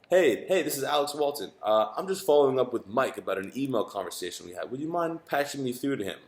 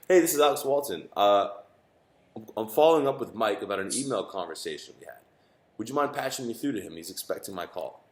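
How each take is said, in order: First: It is said at a faster pace. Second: It is said at a slower pace.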